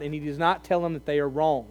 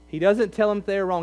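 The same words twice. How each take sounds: First: Said in the usual way. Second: "doesn't" leaned on hard, rest rattled off quickly; stress on doesn't. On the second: Shown as a demonstration. Preacher insisting to the congregation, "doesn't" stressed. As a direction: hammer "doesn't" and hurry the rest.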